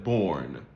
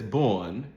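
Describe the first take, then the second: First: The r before n is pronounced. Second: The r before n is dropped.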